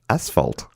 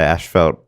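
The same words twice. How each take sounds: First: The first syllable has a plain s sound. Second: The first syllable has an sh sound. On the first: The speaker calls it right. "There's no H in that spot. It's a- it's as" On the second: The speaker calls it wrong. "but we say it wrong"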